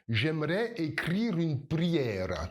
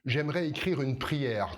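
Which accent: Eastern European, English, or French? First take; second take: Eastern European; French. First: It is said with rolled, tapped R sounds. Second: It is said with an ordinary French R. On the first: "si tu viens d'un pays de l'Est, Tu vas rouler les R" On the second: "tu vas pas dire euh"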